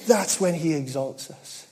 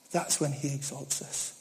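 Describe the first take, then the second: First: Said in the usual way. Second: That's when he exalts us repeated much softer; hushed repetition to let it land; soft echo. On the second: Real, not acted.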